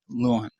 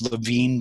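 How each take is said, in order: First: The name is said with English vowels, like 'Loo-in'. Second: The name is said with German vowels, like 'Leveen'. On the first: This is the adapted pronunciation the man himself asked for. "Call me Lewin" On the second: This is the original pronunciation of the name. "the correct German pronunciation is Levine"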